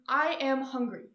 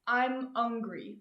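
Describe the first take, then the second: First: Every sound is said clearly, H included. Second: It is said fast with the H dropped.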